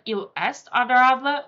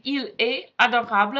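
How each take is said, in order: First: Il est adorable with a sounded t and English r, a little louder; anglicised demo. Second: Il est adorable with the French r, no t sounded; French demo. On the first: Teacher imitates an English learner's accent for students. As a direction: mimic an English speaker saying Il est adorable. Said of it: "instead of". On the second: Teacher contrasts the target pronunciation for students. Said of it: "if you are saying". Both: Shown as a demonstration.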